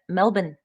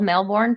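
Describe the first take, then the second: First: It is said the Australian way. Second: It is said the American way. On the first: The speaker calls it right. "but Melbourne" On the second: The speaker calls it wrong. "it's spelled Melbourne for us"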